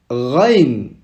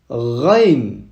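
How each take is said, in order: No difference in how they are said.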